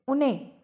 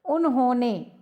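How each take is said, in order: First: उन्हें contracted to "un-ne"; short, squashed उन्हें; hurried उन्हें. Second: उन्होंने in three full syllables; louder, careful "un-ho-ne" for उन्होंने. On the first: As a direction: drop the middle syllable to get उन्हें. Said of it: "जल्दी बोलने के लिए". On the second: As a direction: keep the h and o in उन्होंने. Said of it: "शीघ्रता से बोलने के कारण". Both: Shown as a demonstration.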